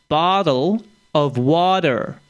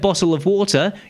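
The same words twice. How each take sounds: First: The middle T sounds are soft, D-like sounds. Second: The middle T sounds are crisp, clear T's. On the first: "you actually say them as a D anyway" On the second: "if I said"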